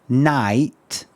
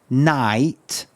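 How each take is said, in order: No difference in how they are said.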